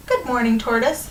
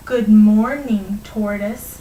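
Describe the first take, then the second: First: Said in the usual way. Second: Drawn-out, mock-slow greeting; mocking slowness. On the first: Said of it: "said the hare very s". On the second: Hare to tortoise, mocking his speed, very slowly. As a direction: stretch the words out to mock a slow talker. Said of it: "said the hare very slowly, mocking the tortoise".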